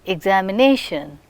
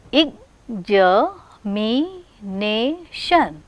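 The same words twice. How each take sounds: First: Said in the usual way. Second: "examination" very slowly, each syllable separate. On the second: Shown as a demonstration. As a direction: break "examination" into five drawn-out beats. Teacher counts the word's syllables.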